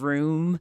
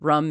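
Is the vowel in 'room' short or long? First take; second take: long; short. First: The vowel is long, as in 'boot'. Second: The vowel is short, as in 'put'. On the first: "instead of room" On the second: "I say like rum"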